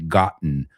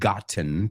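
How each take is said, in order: First: The middle t becomes a glottal stop. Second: The middle t is clearly pronounced. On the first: "muchos americanos nos comemos esa T" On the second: "puedes decir gotten"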